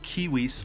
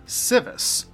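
First: The word begins with a k sound. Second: The word begins with an s sound. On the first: This is how the word was originally meant to sound. "which are supposed to be pronounced kiwis" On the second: This is how people commonly say it today. "They pronounce the modern version"

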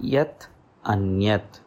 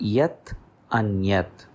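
The two takes are said the same way.

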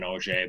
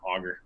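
First: The name is said with a French pronunciation. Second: The name is said with an English pronunciation. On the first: "Auger is actually the French pronunciation" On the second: "Auger's right"

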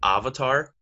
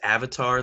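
First: The word is said with the film's altered pronunciation. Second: The word is said with its usual pronunciation.

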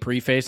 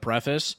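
First: The first syllable sounds like 'pree', as in pre-face. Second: The first syllable sounds like 'preh', as in preff-iss. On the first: It is a joking, affected way of saying the word. The speaker calls it wrong. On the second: It is the ordinary way of saying the word. The speaker calls it right.

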